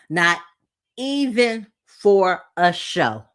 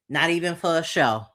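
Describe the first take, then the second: First: Slow and deliberate, every word weighed; emphatic repeat. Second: Said in the usual way. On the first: Real, not acted. Reality show reviewer to viewers, slow emphatic stress. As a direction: hammer home "Not even for a show" word by word.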